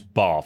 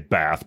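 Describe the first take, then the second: First: It is said with a British accent. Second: It is said with an American accent. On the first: The speaker calls it right. "It's Bath, isn't it?" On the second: The speaker calls it wrong. "we would say Bath"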